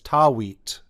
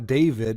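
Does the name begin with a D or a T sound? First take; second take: T; D. First: It begins with T and has a W. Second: It begins with D and has a V. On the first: "it's Tawit" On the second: "Instead of Da David"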